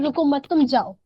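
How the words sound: The pause comes after 'मत'.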